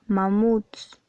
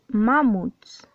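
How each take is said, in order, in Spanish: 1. El acento está en la última sílaba. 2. El acento está en la primera sílaba. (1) "dices mamuts. Por lo tanto es una palabra acentuada en la sílaba muts" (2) "Tú no dices mamuts"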